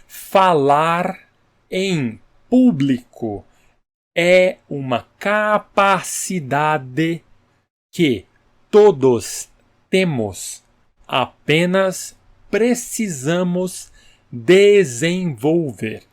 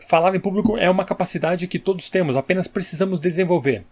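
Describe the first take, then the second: First: It is slow, with every syllable forcefully marked. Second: It is fast, with the syllables run together. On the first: "pronuncia cada sílaba, cada sílaba com bastante é, entusiasmo" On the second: "você tentar falar bem rápido também"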